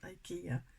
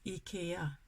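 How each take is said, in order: First: The word is pronounced in an English way. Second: The word is pronounced in a Swedish way. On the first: The speaker calls it wrong. "it's not IKEA in Swedish" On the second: The speaker calls it right. "It's IKEA"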